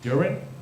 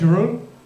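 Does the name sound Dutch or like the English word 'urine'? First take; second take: urine; Dutch. First: The name sounds like English 'urine'. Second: The name has a Dutch 'yeh-roon' sound. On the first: The speaker calls it wrong. "some people pronounce it uh, somehow as urine" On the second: The speaker calls it right. "My name is"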